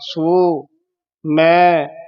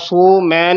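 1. ਦੋਵਾਂ ਸ਼ਬਦਾਂ ਵਿਚਕਾਰ ਇੱਕ ਛੋਟਾ ਜਿਹਾ ਵਿਰਾਮ ਹੁੰਦਾ ਹੈ। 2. ਦੋਵੇਂ ਸ਼ਬਦ ਇਕੱਠੇ ਜੁੜ ਕੇ ਇੱਕ ਵਾਂਗ ਬੋਲੇ ਜਾਂਦੇ ਹਨ। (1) "ਸੋ ਵੱਖਰਾ" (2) "ਸੋ ਮੈਂ ਨਹੀਂ ਕਹਿ ਦੇਣਾ"

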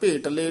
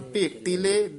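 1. ਵਿਚਕਾਰਲਾ ਵਿਅੰਜਨ 'd' ਵਾਲੀ ਆਵਾਜ਼ ਹੈ। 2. ਵਿਚਕਾਰਲਾ ਵਿਅੰਜਨ 'i' ਸਵਰ ਨਾਲ 't' ਵਾਲੀ ਆਵਾਜ਼ ਹੈ। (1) "ਢੱਡਾ ਨਹੀਂ ਉਚਾਰਨ ਕਰਨਾ" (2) "ਟੈਂਕੇ ਦੇ ਸਿਹਾਰੀ ਜਿਹੜੀ ਹੈਗੀ ਆ ਉਚਾਰਨ ਕਰਨੀ ਹੈ"

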